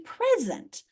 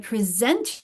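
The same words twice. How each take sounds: First: The stress is on the first syllable. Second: The stress is on the second syllable. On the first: It is a noun meaning a gift. "we stress the first syllable in the in the noun form" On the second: It is a verb meaning to give or show. "on the second syllable in the the verb form"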